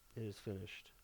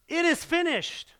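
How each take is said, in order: First: The phrase is said quietly, without force. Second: The phrase is shouted in a loud voice. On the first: The announcement is not meant to be widely heard. The speaker calls it wrong. "he didn't go" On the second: The announcement is meant for everyone to hear. The speaker calls it right. "he yelled it with a loud voice"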